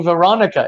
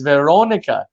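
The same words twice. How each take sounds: First: "Veronica" with an American "ah" vowel; higher "Veronica", open "ah" in the second syllable; mistaken English pronunciation. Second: "Veronica" with a round "oh" in the second syllable; corrected Portuguese pronunciation. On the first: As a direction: mimic the error: "Veronica" with "ah". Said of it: "you're saying Veronica". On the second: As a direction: model "Veronica" with rounded lips on "oh". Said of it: "it's Veronica". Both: Retold or imitated.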